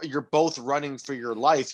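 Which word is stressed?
none. No word is specially stressed.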